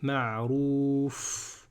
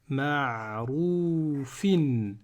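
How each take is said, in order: First: The word ends bare on the f sound. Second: The word ends with an -in sound. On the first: The reciter stops on this word. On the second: The recitation continues without stopping.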